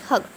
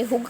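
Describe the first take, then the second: First: हग with a short "uh"; short neutral vowel in हग; correct reading of hug. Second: हुग with a short "oo"; wrong reading of hug. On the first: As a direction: say हग with the vowel of "cup". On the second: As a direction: say हुग with the vowel of "book". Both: Shown as a demonstration. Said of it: "ना तो हमने हुग कहा".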